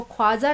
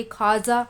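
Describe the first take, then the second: First: ख्वाजा as 'khwaaja', with an audible w; vav wrongly sounded. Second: खाजा as 'khaaja', no w sound; silent vav. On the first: (ख्वाजा में वाव की आवाज़ निकालकर) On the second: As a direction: go straight from kh to a long aa in खाजा. (खाजा, वाव बिना बोले) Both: Shown as a demonstration. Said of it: "इसको ख्वाजा नहीं पढ़ेंगे".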